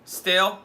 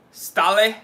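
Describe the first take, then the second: First: "Stale" in one syllable, like English "stale"; alternative pronunciation. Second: "Stale" in two syllables, STAH-leh; questioning pronunciation. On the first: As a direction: say "Stale" rhyming with "pale", rising in question. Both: Real, not acted. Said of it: "is that how you pronounce it?".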